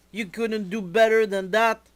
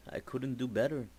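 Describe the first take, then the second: First: Higher, louder, indignant complaint; outraged. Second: Softer, mumbled apology; sheepish. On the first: Jazz complains to E-Man, high and indignant. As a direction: throw the blame at him, pitch up. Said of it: "Jazz is very upset". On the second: E-Man apologizes to Jazz, soft and sheepish. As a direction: admit it quietly, a bit embarrassed. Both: Acted.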